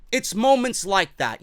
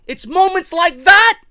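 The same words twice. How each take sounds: First: Said in the usual way. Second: Louder, stretched out and hammered home; ranting fan stresses the point, loud and slow; emphatic loud. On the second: Real, not acted.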